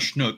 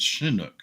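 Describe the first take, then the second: First: The word is squeezed into one syllable. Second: The word is said with two syllables. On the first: The speaker calls it wrong. "It's not Schnook" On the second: The speaker calls it right. "I believe it's two syllables, not one"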